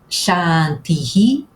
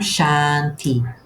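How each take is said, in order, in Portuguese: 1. Termina com um eco aspirado da última vogal. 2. Termina simplesmente na última vogal. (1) "acrescentássemos uma sílaba à palavra" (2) "e não"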